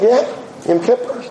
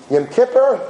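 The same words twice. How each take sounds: First: Lightly voiced grandmother; grandmother's reply. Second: Higher-pitched, incredulous question; flabbergasted. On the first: Grandmother confirming her favorite day to a grandchild, matter-of-fact. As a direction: answer as if it were obvious. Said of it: "She said". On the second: Retold or imitated. Kid reacting to grandmother's favorite day, mildly flabbergasted. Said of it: "was flabbergasted".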